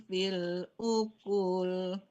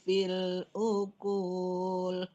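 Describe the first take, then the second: Both takes have the same delivery.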